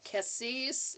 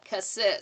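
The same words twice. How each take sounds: First: The word ends with a crisp, dry S. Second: The final S sound is soft, not crisp. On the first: The speaker calls it right. "It's like a dry S at the end" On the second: The speaker calls it wrong. "I was saying it wrong"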